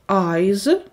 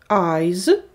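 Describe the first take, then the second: The two takes are said the same way.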